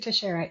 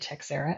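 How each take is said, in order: First: The surname is said in its standard form. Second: The surname is said in an altered form. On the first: The speaker calls it right. "is absolutely the right pronunciation" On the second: The speaker calls it wrong. "I intentionally mispronounce it"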